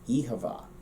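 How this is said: The second word has a clear v sound. "from Munster, the first word changes slightly, and then you also get the V sound in the second word"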